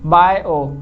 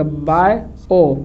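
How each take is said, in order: First: Said in the usual way. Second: bio stretched very slowly, both vowels held; drawn out. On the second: Shown as a demonstration. Teacher asks the class to listen, then stretches bio. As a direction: draw out bio so both vowel sounds ring. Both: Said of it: "ध्यान सुनिएगा".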